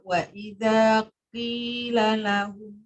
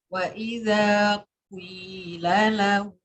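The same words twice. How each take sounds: First: The q sound is thin and light. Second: A brief u sound glides into the i. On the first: "Yang kedua tadi itu qafnya tarkik" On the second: "Yang ketiga itu isma"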